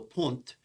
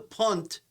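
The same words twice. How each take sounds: First: It is not said like the football kick word. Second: It is said like the football kick word. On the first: It names the recess in a bottle's base. The speaker calls it right. "It's called the punt" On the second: It names a kick in football. The speaker calls it wrong. "not the punt, even though it's spelled the same way. You know, Patriots punt a lot"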